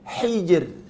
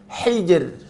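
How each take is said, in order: Both takes have the same delivery.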